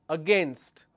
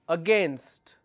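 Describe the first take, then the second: No difference in how they are said.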